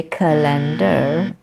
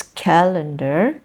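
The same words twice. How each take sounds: First: "calendar" as ca-LEN-dar; stress second syllable. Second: "calendar" slowly as CAL-en-dar; stress first syllable. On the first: Teacher shows what some people say, stress second syllable. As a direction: move the weight to LEN in "calendar". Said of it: "stress happens on the second syllable". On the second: Teacher gives the correct example, stress first syllable. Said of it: "where the stress happens". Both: Shown as a demonstration.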